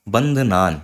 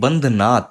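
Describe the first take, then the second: First: The word ends with an n sound. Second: The word ends with a t sound. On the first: The speaker calls it right. "बंधनान यही होगा" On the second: The speaker calls it wrong. "ये बंधनाथ ये नहीं होगा"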